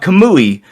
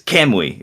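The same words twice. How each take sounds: First: The stress falls on a later syllable. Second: The stress falls on the first syllable. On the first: The speaker calls it wrong. "it's not Kamui" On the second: The speaker calls it right. "put the emphasis on the Cam"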